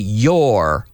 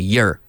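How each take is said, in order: First: The word is said in its full form. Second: The word is said in a reduced form. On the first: "I don't say your all the time" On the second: "I say your"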